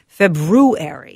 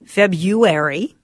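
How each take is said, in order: First: FEB-ROO-AIRY, slow and deliberate with the R; February as "Feb-roo-airy", drawn out; traditional February. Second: FEB-YOO-AIR-EE, drawn out slowly; February as "Feb-you-airy", questioning lift; February with a Y sound. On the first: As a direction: say February slowly, sounding the first R. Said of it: "this is more traditional". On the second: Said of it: "two most common ways to say it". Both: Shown as a demonstration.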